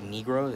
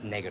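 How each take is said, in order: First: It is pronounced the English way. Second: It is pronounced the Spanish way. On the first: The speaker calls it wrong. "people say like negro, is that's not how you say it" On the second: The speaker calls it right. "It's negro"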